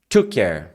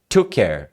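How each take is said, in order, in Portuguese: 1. O k de 'took' se funde com 'care'. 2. O k de 'took' se funde com 'care'.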